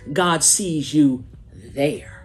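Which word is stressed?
there. The stress falls on the word there.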